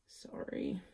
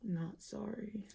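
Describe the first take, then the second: First: Breathy, half-voiced little apology; whispered sorry. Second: "Not" leaned on, slow and soft, "sorry" trailing off; stress on NOT. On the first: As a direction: whisper it like a quick aside. Quick mock apology. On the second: Pretend. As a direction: push the word "Not", then let "sorry" drop. Joking take-back of apology.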